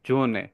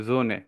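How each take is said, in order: First: The word begins with a buzzing z sound. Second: The word begins with a buzzing z sound.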